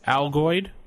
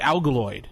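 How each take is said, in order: First: The word has no extra L syllable inside. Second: The word has an extra L syllable inside. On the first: The speaker calls it right. "There you go" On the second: The speaker calls it wrong. "That's how I pronounce it"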